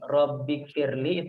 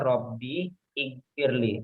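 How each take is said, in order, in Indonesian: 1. Kata-kata itu menyatu tanpa vokal awal. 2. Vokal awal pada ighfir jelas diucapkan. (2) "itu aslinya"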